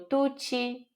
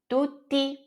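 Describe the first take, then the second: First: The final syllable sounds like chee. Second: The final syllable sounds like tee. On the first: The speaker calls it wrong. "A gente fala com som de ti" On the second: The speaker calls it right. "T tem o som de T mesmo"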